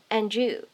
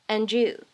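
First: The d and y sounds blend together. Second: The d and y sounds blend together.

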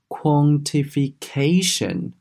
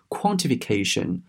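First: The stress falls late in the word. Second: The stress falls early in the word. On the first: The speaker calls it right. "重音在后面啊，读作是quantification" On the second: The speaker calls it wrong. "你不要把它读成是quantification，这样子呢是不对的"

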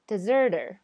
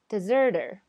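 First: The T is a short D-like sound. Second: The same.

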